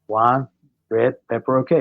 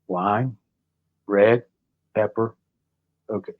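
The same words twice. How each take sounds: First: It is said at a normal speed. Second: It is said very slowly.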